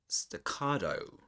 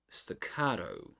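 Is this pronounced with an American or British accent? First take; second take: American; American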